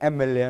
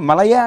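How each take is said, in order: First: The word begins with an 'e' vowel sound. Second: The word begins with an 'm' consonant sound. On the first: The speaker calls it right. "ఓవెల్ సౌండ్తో పలుకుతున్నాం" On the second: The speaker calls it wrong. "మలయే అంటలా"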